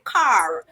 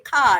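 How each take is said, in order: First: It has a Jamaican accent with a stronger R. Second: It has a Vincentian accent with a weak R.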